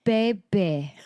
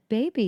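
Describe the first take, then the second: First: Put-on toddler sounding out "Baby" in two separate syllables; toddler imitation. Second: Said in the usual way. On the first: Mother imitating her son's attempt at "Baby", halting toddler voice. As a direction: copy a child carefully forming "Baby", stretched out. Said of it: "He said". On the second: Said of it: "I was like".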